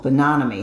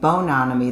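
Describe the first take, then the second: First: The stress is on the second syllable. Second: The stress is on the first syllable. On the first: The speaker calls it right. "it's the second syllable" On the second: The speaker calls it wrong. "I was putting the um, accent on the wrong syllable"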